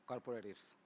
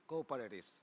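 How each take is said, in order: Both takes have the same delivery.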